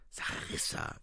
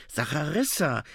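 First: Urgent whisper of her name. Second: Voiced, higher call of her name; insistent call. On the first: A narrator's reading. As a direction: whisper it to get her attention. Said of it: "flüsterte William". (geflüstert) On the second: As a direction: say her name aloud to stop her. Calls her name again, more insistently. (eindringlicher Zuruf)

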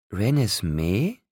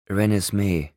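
First: "Renesmee" drawn out slowly, rising at the end; questioning. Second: Said in the usual way. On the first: A narrator's reading. Rosalie repeats "Renesmee", slow questioning rise.

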